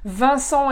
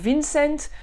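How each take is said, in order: First: The name has French sounds, with a nasal vowel. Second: The name has German sounds, without nasal vowels.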